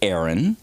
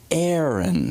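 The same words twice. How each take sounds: First: The name is said like 'Erin'. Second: The name starts like 'air' in aeronautics. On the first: The speaker calls it wrong. "it's not um, E R I N, which would be Aaron" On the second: The speaker calls it right. "it's A E R O N. So Aaron. So think of aeronautics"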